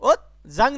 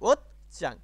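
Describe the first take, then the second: First: The second syllable starts with a soft j sound. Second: The second syllable starts with a tense ch sound. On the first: The speaker calls it wrong. "ওত জাং না কিন্তু" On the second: The speaker calls it right.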